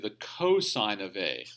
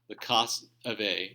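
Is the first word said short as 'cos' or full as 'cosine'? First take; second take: cosine; cos. First: The first word is the full form 'cosine'. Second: The first word is the short form 'cos'. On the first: The speaker calls it right. "you'll say the cosine of A" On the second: The speaker calls it wrong. "don't say the cos of A"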